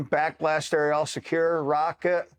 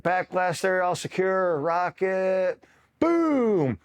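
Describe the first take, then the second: First: Said in the usual way. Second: Hammed-up rocket call. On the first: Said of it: "you're gonna do it by the book". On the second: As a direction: call out the drill like an eager recruit, then yell boom. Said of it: "And they're like".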